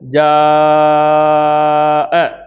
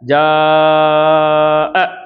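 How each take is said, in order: First: The long vowel is held for five counts. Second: The long vowel is held for four counts. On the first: "ஐந்து கவுண்டோ" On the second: "நான்கு கவுண்டோ"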